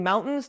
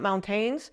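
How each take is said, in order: First: Said in the usual way. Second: MounTAINS, stressed on the second syllable; wrong French-style intonation. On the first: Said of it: "pick up that he's saying mountains". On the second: Retold or imitated. Showing husband's mistake to viewers, mountains stressed on the end. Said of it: "not mountains".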